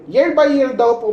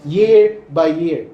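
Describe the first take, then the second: First: "Year by year" lifted higher with stress on "by"; raised emphasis. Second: "year by year" drawn out slowly, each word weighted; slow emphatic reading. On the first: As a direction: repeat "Year by year" pitched up, hitting "by". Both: Shown as a demonstration. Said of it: "take note po sa verse".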